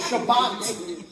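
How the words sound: The word ends with a T sound. "Shabbat has a T at the end when we pronounce it"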